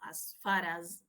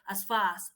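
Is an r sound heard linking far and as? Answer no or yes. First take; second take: yes; no. First: The words are joined with a linking r sound. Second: The words are said without a linking r sound. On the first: The speaker calls it right. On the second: The speaker calls it wrong. "you're not going to say"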